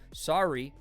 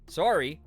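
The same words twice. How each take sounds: First: The accent is only faintly marked. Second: The accent is heavily exaggerated. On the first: "that wasn't enough" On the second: "now I sound like a caricature"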